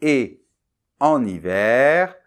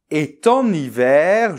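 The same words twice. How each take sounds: First: Et en hiver slow, with a clear break after et and no t; no liaison. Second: Et en hiver with a t sounded after et, e-t-en hiver; wrong liaison. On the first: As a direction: pause after et, then en hiver. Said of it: "on doit dire". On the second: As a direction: slowly link et to en with an added t. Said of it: "l'erreur typique, ce serait de dire". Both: Shown as a demonstration.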